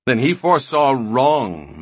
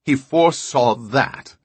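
First: He stressed, louder, falling; scornful stress. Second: Loud scoffing question, stress on He; He stressed in disbelief; incredulous. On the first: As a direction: dismiss it, leaning on he. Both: A narrator's reading. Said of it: "Rios laughed suddenly".

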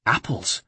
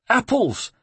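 First: Said in the usual way. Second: "Apples." said very high and falling, in the monk's voice; "Apples." squeaked out by the scared monk, dropping at the end; monk's answer. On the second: Acted. A frightened monk answers Ezio with a high falling "Apples.".

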